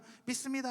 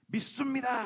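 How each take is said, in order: First: The word is said with plain consonants. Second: The word is said forcefully with tense consonants.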